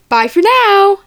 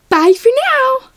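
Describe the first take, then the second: First: It is said in a plainer, less cheery tone. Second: It is said in a brighter, more cheery tone. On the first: "That's pretty good" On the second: "maybe a little more cheery. A little more cheery"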